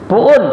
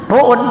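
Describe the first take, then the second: First: It is said as a long 'puun', the h dropped. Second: The same.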